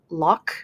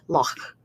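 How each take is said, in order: First: It ends with a plain k sound. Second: It ends with a throaty fricative sound. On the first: "in normal English accents for the American accents and in British accents, we often say loch" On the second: "they're going to say in Scotland"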